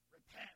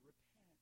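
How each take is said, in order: First: The word is said with heavy, dramatic weight. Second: The word is said plainly, without weight. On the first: The speaker calls it right. "It's got to have some gravitas to it" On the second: The speaker calls it wrong. "You can't just say repent"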